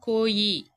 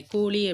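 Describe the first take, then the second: First: கோயி with a y glide for ழ, "koo-yi"; mispronunciation. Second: கோழி with a ழ sound, not y; correct pronunciation. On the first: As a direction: show the slip கோயி, louder, zh softened to y. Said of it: "அது வந்து உச்சரிப்பு பிழை". (ழகரம் யகரமாக மாறிய கோயி) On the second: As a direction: curl the tongue for the middle of கோழி. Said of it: "அப்படின்ற சொல்றது தான் correct". (கோழி என ழகர ஒலியுடன்) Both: Shown as a demonstration.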